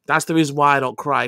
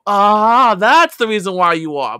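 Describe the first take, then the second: First: Said in the usual way. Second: Loud, barking army-style yell; mock drill sergeant yell. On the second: Ex-soldier imitating the drill sergeants who yelled at him, mock yell. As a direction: bark it like a drill instructor.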